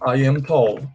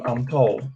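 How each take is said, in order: First: I am is said as two full words. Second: I am is contracted into one syllable. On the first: "eu posso falar I am tall"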